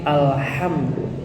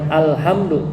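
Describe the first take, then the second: First: The h sound is drawn out with flowing breath. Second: The h sound is short and clipped. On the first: The speaker calls it right. "mengalir alirkan dulu kalau huruf ha-nya itu sukun" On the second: The speaker calls it wrong.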